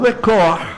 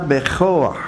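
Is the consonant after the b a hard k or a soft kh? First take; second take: hard k; soft kh. First: The consonant after b is a hard k. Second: The consonant after b is a soft kh. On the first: The speaker calls it wrong. "לא, זה טעות" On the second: The speaker calls it right. "חף. רפויה"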